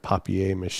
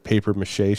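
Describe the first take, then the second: First: The first word is said the French way. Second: The first word is said the plain English way. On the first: "French way" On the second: "instead of paper mache"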